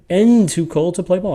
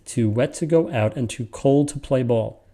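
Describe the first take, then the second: First: "And too cold to play ball" raised high and louder on "And"; emphatic question reading. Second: "Too wet to go out and too cold to play ball" read evenly as normal speech; just read it naturally. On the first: Teacher showing an odd questioning reading, higher and louder. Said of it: "you can imagine a sentence". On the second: Teacher showing a plain natural reading of the line. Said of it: "a natural reading is". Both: Shown as a demonstration.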